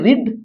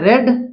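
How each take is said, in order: First: The vowel is long, like in 'reed'. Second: The vowel is short, like in 'red'. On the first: It is the present form of the verb. "इसका उच्चारण होता है रिड" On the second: It is the past form of the verb. "इसका होता है रेड"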